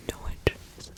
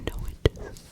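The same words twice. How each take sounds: The two takes are said the same way.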